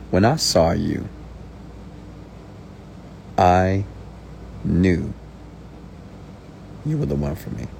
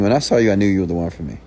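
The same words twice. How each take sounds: First: It is said slowly with a long pause. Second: It is said quickly without a long pause. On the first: It sounds powerful and convincing. The speaker calls it right. "when you say it slow, you pause" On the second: It sounds unconvincing. The speaker calls it wrong. "Instead of saying"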